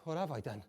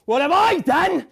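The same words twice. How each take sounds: First: Soft, low, stunned murmur of "What have I done"; hushed horror. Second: High, loud cry of "What have I done" with stress on I; screamed horror. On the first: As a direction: whisper it to yourself, numb. Horrified self-questioning, hushed. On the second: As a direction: scream it out in despair. Horrified self-questioning, screamed. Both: Acted.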